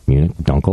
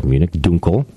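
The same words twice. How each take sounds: First: Dunkel as "DUNK-el"; anglicized Munich Dunkel; English pronunciation. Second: Dunkel as "DOON-kel"; German pronunciation. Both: Shown as a demonstration. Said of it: "in English, you would just say".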